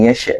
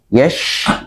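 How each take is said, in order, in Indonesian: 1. Bunyi sh dipotong dengan memantul. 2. Bunyi sh mengalir terus dengan napas. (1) "bukan yes" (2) "tapi yes"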